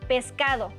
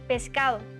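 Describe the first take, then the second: First: The d between the vowels is pronounced. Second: The d between the vowels is dropped. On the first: This is how it sounds in Mexico. "En México" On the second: This is how it sounds in Venezuela and Spain. "Se pierde la D entre vocales"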